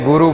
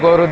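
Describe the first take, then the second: First: The first vowel is a plain 'oo' sound. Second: The first vowel is a rounded 'ow' sound. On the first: This is how people here say it. "अपन तो बोलते हैं जैसे गुरु बोलते हैं" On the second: This is how the Bengali-style group says it. "अब वो गौरू बोल रहे हैं"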